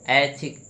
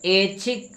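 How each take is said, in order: First: ऐच्छिक opened with a wide "ai"; lower-pitched ऐच्छिक with open "ai"; corrected pronunciation. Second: ऐच्छिक opened with a plain "e", as "ech-chhik"; closed "e" at the start of ऐच्छिक; mispronounced ऐच्छिक. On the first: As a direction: say ऐच्छिक as "AI-chhik", open first vowel. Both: Shown as a demonstration. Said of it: "मात्रा इसमें भी छूटी हुई".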